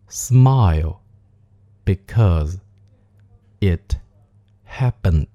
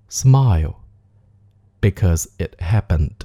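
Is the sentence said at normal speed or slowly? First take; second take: slow; normal. First: The sentence is spoken slowly. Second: The sentence is spoken at normal speed. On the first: "我们来慢速练习一下这个句子。" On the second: "我们来带爆破音常速的念一遍。"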